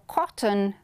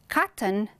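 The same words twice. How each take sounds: First: It is said with a British accent. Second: It is said with an American accent. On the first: "we have British" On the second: "we have American"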